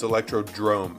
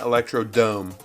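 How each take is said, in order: First: The name ends in 'drome' with an r. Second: The name ends in 'dome' without an r. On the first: The speaker calls it right. "It's it's Electrodrome" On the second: The speaker calls it wrong. "I mispronounced this. ... It's not Electrodome"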